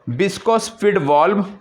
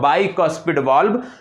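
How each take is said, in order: First: The first syllable is said as 'bis'. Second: The first syllable is said as 'bai'. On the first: The speaker calls it wrong. "जिसको आप बोलते हो" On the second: The speaker calls it right. "इसका सही उच्चारण होगा"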